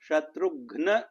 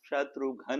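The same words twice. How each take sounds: First: The u is heavy and ghn is fully pronounced. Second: The u is light and ghn is dropped. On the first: The speaker calls it right. "शत्रुघ्न इति न वदन्ति" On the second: The speaker calls it wrong. "उकारस्य लघुतयैव उच्चारणं कुर्वन्ति"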